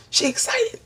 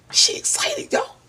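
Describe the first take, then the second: First: "She excited" squealed very high with a rising end. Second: "She excited" in an unvoiced whisper. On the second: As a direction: breathe "She excited" as a secret. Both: Shown as a demonstration.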